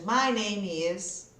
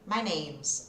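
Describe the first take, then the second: First: Each word is said separately and fully. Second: The words are run together into one unit. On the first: "quando eu falo separadinho, não está errado" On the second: "Eu vou grudando os sons"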